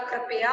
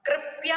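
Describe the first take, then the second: First: कृपया said in full as "kri-pa-ya"; correct pronunciation. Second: कृपया said without the k, as "ripya"; wrong pronunciation. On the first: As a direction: say कृपया with a clear kr at the start. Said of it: "होता है". (कृपया का शुद्ध उच्चारण "कृ-प-या") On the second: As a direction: say कृपया as "ripya", dropping the opening k. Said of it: "नहीं होता". (कृपया को "रिप्या" बोलना) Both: Shown as a demonstration.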